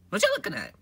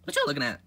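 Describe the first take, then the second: First: Higher, louder take of the question; high squeaky voice. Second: Said in the usual way. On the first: Acted. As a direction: push it up into a squeaky character voice.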